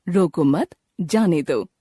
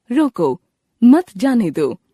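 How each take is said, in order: First: रोको मत joined and rising, pause, then जाने दो; pause after मत. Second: Firm रोको, pause, then मत जाने दो punched louder; pause after रोको. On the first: Showing the comma's opposite meaning, pause right after मत. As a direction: join रोको to मत, break before जाने दो. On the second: Showing how the comma changes meaning, pause right after रोको. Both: Shown as a demonstration. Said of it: "अलग-अलग जगह पर अल्पविराम को लगाया गया है".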